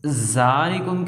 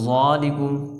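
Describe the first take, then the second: First: The z sound is hard and thin. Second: The z sound is full and thick. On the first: "ज़ा पढ़ दिया ज़ाल की जगह" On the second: "या ज़ा पढ़ दिया ज़ाल की जगह"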